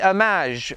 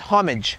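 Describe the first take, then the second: First: The word is said with a French pronunciation. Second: The word is said with an English pronunciation. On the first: "If I was speaking in French, I would say homage" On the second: "but I'm doing English, so it's homage"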